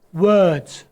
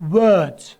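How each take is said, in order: First: It starts with a W sound using rounded lips. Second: It starts with a W sound using rounded lips.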